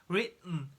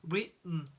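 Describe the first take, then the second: No difference in how they are said.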